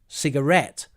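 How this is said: It is said with an English pronunciation. The speaker calls it right. "we use English pronunciation"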